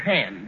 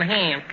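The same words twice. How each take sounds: First: The vowel is a plain standard short vowel. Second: The vowel is a New York style drawn-out vowel. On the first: The speaker calls it right. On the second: The speaker calls it wrong.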